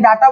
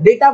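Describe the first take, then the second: First: The first syllable has an open 'ah' vowel. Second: The first syllable has an 'ay' vowel. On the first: The speaker calls it wrong. "डाटा बोलना गलत है" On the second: The speaker calls it right. "डेटा बोलते हैं actually"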